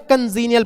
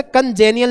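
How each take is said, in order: First: कंजीनियल with "zee" as the middle syllable; correct pronunciation. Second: कंजेनियल mispronounced with "je" in place of "zee"; wrong pronunciation. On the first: Teacher correcting students' reading, कंजीनियल said with a long "zee". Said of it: "कंजीनियल पढ़ते हैं". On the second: Teacher showing students the reading to avoid, कंजेनियल with a "jay" sound. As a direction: say कंजेनियल with a "jay" in the middle, kan-JAY-nial. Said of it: "इसे कंजेनियल नहीं पढ़ते". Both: Shown as a demonstration.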